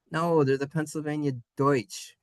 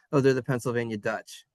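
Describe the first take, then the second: First: "Deutsch" with a full oi sound; corrected German Deutsch. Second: Quick, lower, "Dutch" with short uh; lazy Dutch pronunciation. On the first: Shown as a demonstration. Teacher correcting lazy speakers, "Deutsch" with clear oi. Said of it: "oi sound". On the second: Retold or imitated. Teacher imitating lazy English speakers, "Dutch" with short uh. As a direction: toss off "Dutch" without the oi sound. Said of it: "didn't want to make the oi sound".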